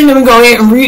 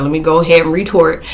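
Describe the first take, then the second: First: Repeated louder through a laugh; giggly, raised retake. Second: Said in the usual way. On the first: Retold or imitated. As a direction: say it again, cracking up. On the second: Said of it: "you know, I said".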